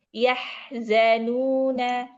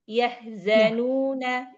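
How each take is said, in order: First: The word is unhurried, with the h drawn out. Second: The word is rushed, with the h cut short. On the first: The speaker calls it right. "seperti itu ya" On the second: The speaker calls it wrong. "terlalu cepat"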